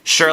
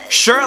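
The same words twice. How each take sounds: First: It sounds reluctant and unexcited. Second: It sounds eager and excited.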